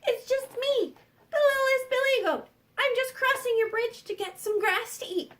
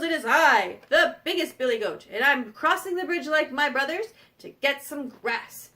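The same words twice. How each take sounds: First: High-pitched little goat voice; littlest billy goat. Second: Firm big-goat voice; biggest billy goat. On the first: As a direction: pipe up as the smallest, harmless goat. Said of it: "the little billy goat said". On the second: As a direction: announce yourself as the biggest goat. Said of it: "he goes". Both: Acted.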